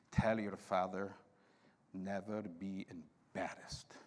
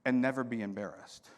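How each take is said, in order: First: Low, slow, near-whispered warning; imitating a priest, sinking into a slow whisper; hushed priest's admonishment. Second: Said in the usual way. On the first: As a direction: lean in quietly and space out the words. Priest's stern message, acted out.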